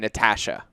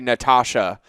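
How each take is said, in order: First: The name is said the Canadian way. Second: The name is said the American way. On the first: "Canadians say" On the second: "Americans say"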